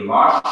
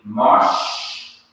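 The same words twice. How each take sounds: First: Said in the usual way. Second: Mosh drawn out slowly with a short O; slow mosh demo. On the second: Shown as a demonstration. Teacher spelling out the Hebrew word for students, slow demo. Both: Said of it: "this would be pronounced as a short O".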